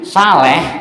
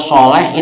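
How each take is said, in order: First: It begins with a plain, light s sound. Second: It begins with a heavy, emphatic s sound. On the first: A person who has diarrhea. The speaker calls it wrong. "pakai sin saleh" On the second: A good, righteous person. The speaker calls it right. "sin sama shot itu sudah salah arti"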